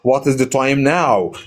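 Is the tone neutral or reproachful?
neutral. It is asked as a plain, neutral question. The speaker genuinely wants to know the time. "I'm asking for the time"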